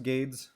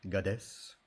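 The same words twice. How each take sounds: First: "Gades" as one syllable, GAYDZ; English-style pronunciation. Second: "Gades" in two syllables, GAH-des; foreign-style pronunciation. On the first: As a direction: say "Gades" to rhyme with "spades". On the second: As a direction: say "Gades" with an ah, then a short des. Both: Shown as a demonstration. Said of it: "Is it pronounced".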